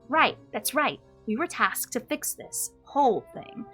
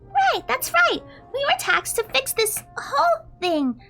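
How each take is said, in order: First: It is spoken in the elder character's voice. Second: It is spoken in the other character's voice.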